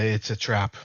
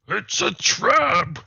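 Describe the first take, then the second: First: It is said in his normal voice. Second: It is said in a put-on squid voice.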